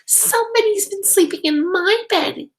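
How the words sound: It is said in a high, squeaky voice.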